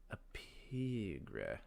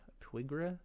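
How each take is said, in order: First: Slow, falling "pigra" as a first try; a careful first guess at "pigra"; unsure reading. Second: "pigra" tilted up as a question; second-guessing the name "pigra". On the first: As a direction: sound out "pigra" slowly and land it down. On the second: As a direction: ask "A pigra?" with a rising, doubtful tune. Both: Shown as a demonstration. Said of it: "I don't actually know how they pronounce that".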